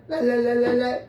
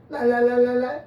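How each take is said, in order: The two takes are said the same way.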